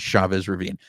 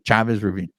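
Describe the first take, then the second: First: Chavez is pronounced the English way. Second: Chavez is pronounced the Spanish way. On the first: The speaker calls it wrong. "I'm proud of my heritage, and I'm pronouncing it" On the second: The speaker calls it right. "I'm sorry"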